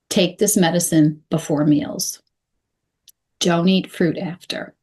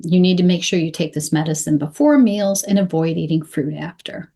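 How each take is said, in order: First: "Take this medicine before meals", full pause, "Don't eat fruit after"; two short sentences. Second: Said in the usual way. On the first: Shown as a demonstration. Coach simplifying instructions for a patient, two short sentences. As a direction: give each instruction separately with a clear stop between. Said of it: "That can be broken down into". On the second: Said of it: "I have a very simple sentence".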